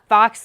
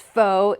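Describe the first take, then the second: First: It is said with the vowel of 'fox'. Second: It is said like 'foe', with no x. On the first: The speaker calls it wrong. "it's not fox louvers" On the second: The speaker calls it right. "pronounced as faux"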